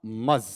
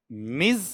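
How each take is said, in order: First: मज with a neutral 'uh' vowel; lower, isolated मज, like 'muhz'; outdated pronunciation. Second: मिज with a short i and buzzing z; lower, isolated मिज, like 'miz'; current pronunciation. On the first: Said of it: "मज outdated है". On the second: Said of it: "इसके दो उच्चारण हैं". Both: Shown as a demonstration.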